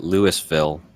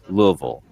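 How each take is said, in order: First: The name is said fully and carefully. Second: The name is said in a lazy, reduced way. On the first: The speaker is new to the city. "you might even be so naive as to call it Louisville" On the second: The speaker has lived in the city a long time. "you get lazier and lazier until it's Louisville"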